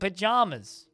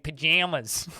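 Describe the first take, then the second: First: Its middle vowel matches the vowel in bananas. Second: Its middle vowel differs from the vowel in bananas. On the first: The speaker calls it right. "they pronounce it bananas in pajamas. So that it sounds like it actually rhymes" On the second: The speaker calls it wrong. "instead of saying pajamas"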